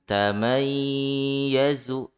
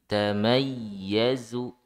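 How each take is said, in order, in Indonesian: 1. Bunyi y ganda ditahan dan dipanjangkan. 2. Bunyi y ganda dihentak pendek dan tiba-tiba. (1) "jangan ditahan" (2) "tapi dihentak"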